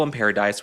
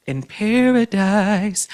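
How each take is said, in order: First: Said in the usual way. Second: PARADISE stretched out slowly and pitched up; teasing drawn-out emphasis. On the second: Real, not acted. Host hinting at trouble between the Obamas, teasing stretched "paradise". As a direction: draw out "paradise" in a high, teasing lilt. Teasing singsong phrase, then repeated plainly.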